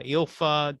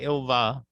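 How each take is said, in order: First: The middle consonant is an F sound. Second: The middle consonant is a V sound. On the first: "Mike used to call her Ilfa" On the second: "Ilva with a V is how it's it's correctly pronounced"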